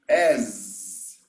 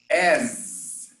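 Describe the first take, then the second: First: It ends in a buzzing z sound. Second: The same.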